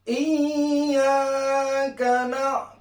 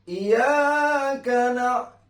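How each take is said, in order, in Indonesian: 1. Bunyi y ditahan lama dan digandakan. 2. Bunyi y pendek dan tunggal. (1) "tasydid di dalam huruf iya itu tetap harus uh, terdengar" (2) "kalau tidak ditasdidkan terdengar"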